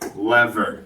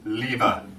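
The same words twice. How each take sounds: First: It is said the American way. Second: It is said the British way.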